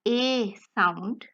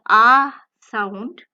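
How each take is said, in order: First: A said as "eh", mouth only partly open; half-closed E vowel. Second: A said as a loud "ah", mouth fully open; open AH vowel. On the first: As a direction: say A like the German E, "ay" without a glide. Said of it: "partially open as". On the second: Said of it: "fully open". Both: Shown as a demonstration.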